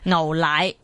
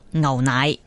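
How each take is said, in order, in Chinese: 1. 这个词以l音开头。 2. 这个词以鼻音开头。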